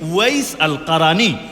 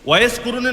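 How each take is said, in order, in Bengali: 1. দ্বিতীয় নামটি al-Qarani হিসেবে বলা হয়। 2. দ্বিতীয় নামটি Kuruni হিসেবে বলা হয়। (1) "এই হলো বিশুদ্ধ উচ্চারণ" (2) "ওয়াইস কুরুনি নামটা শুদ্ধ না"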